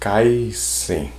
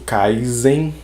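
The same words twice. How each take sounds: First: The middle consonant is voiceless, like an s. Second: The middle consonant is voiced, like a z. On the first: The speaker calls it right. "Então é Kaisen" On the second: The speaker calls it wrong. "tem muita gente falando Jujutsu Kaisen, mas não é"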